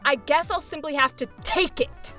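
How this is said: The word take is forcefully emphasized.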